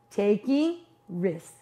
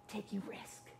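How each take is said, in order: First: Each word drawn out slowly; preacher landing the refrain slowly; slow emphatic answer. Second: Breathy hush on the answer; a dramatic whispered punchline. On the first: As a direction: lean on it, slow and deliberate. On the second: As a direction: let the answer drop to a whisper. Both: Acted. Sermon refrain, answer to own question.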